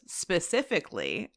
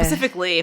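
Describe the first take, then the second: First: The word starts with an s sound. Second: The word starts with a p sound. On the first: The speaker calls it right. "is where I need you to go" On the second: The speaker calls it wrong. "People often use Pacific because they can't quite get this"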